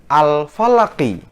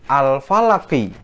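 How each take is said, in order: No difference in how they are said.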